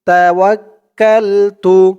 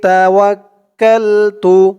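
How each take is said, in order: No difference in how they are said.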